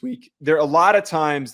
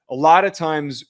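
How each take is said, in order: First: Real accidental crack in the voice. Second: Said in the usual way. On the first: Real, not acted. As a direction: voice cracking mid-phrase. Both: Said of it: "that was a bad voice crack".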